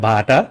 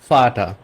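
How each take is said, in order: First: The word begins with a b sound. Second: The word begins with an f sound. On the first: The speaker calls it wrong. "এটা বাটা বা ভাটা হবে না" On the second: The speaker calls it right. "এটা ফাটা"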